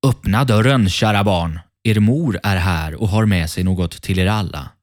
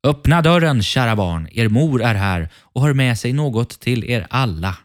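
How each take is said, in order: First: Lightly acted wolf, calling out at the door; a hint of the wolf posing as mother; mildly voiced wolf calling. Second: Higher, sweetened wolf calling out; lighter disguised voice. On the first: Wolf calls to the kids to open the door, lightly voiced wolf. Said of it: "Det hördes på den mörka rösten". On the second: Wolf pretends to be the kids' mother, calling in a lighter voice. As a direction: call out high, posing as mother. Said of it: "göra rösten ljusare". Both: A narrator's reading.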